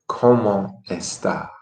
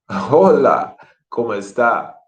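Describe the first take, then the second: First: Said in the usual way. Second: "Hola, ¿cómo está?" with a warm laugh, really asking; genuine greeting. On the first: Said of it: "I don't want you to say it". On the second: Shown as a demonstration. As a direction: greet a friend you're glad to see. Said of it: "be genuine".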